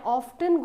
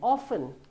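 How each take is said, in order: First: The word is said with a clear T sound. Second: The word is said without a T sound. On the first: "you might have heard people saying" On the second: "the T is silent"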